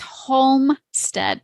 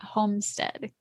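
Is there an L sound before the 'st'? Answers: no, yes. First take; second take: yes; no. First: An L sound is heard in the word. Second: No L sound is heard in the word. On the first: The speaker calls it right. "Don't forget the L. it's Homestead" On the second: The speaker calls it wrong. "not Homestead"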